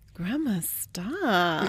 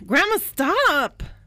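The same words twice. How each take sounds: First: It is said in a flirty tone. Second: It is said in an annoyed tone.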